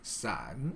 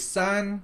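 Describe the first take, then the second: First: The pitch dips down and then rises. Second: The pitch stays high and level. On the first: It means umbrella. "your tone goes down and then up" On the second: It means three. "sun with the first tone"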